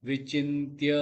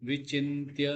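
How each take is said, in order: Both takes have the same delivery.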